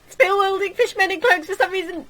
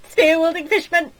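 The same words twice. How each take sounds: First: Higher, louder panicked yell; panicked shout. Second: High, loud panicked cry; alarmed shout. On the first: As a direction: shout in rising disbelief. Alarm building. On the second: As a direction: shout the warning. Alarm at fishmen. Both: Acted.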